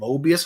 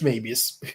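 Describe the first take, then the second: First: It sounds like the math term Möbius. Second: It sounds unlike the math term Möbius. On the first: The speaker calls it wrong. "I used to mispronounce it" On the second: The speaker calls it right. "Nope, it's Mabius"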